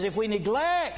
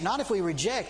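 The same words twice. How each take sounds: First: "neglect" punched high and loud; stress on neglect. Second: Said in the usual way. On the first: Shown as a demonstration. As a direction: hit the word "neglect" hard, against reject. Look at that word.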